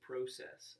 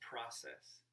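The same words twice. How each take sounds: First: The word is said with a British-style vowel. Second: The word is said with an American-style vowel. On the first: The speaker is putting on airs. The speaker calls it wrong. "it's so pretentious. If you're not like British" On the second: The speaker talks in their normal way. The speaker calls it right. "If you're not like British, it's process"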